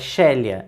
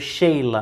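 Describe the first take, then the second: First: The name has three syllables, like she-LEE-ah. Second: The name has two syllables, like SHEE-lah. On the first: The speaker calls it right. "mas o nome dela, na verdade, é Shelia" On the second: The speaker calls it wrong. "eu estava o tempo todo falando Sheila"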